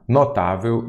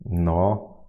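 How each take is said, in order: First: Said in the usual way. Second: Notável split as no, tá, vel; syllable by syllable. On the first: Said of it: "eu já sei que a sílaba". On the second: Shown as a demonstration. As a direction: sound out "Notável" with long gaps between syllables. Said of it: "vamos fazer aqui".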